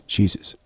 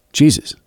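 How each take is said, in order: First: "Jesus." barely voiced, much softer; a new boy almost too shy to say "Jesus."; whisper-soft "Jesus." that no one hears; said quietly. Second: Said in the usual way. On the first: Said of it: "And he said it quietly". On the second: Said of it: "Please speak up".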